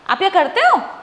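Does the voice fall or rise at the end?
rise. It is said as a question, rising.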